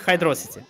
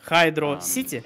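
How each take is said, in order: First: It is said as one word rhyming with velocity. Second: It is said as two separate words.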